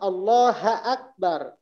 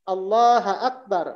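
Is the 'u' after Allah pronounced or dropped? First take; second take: dropped; dropped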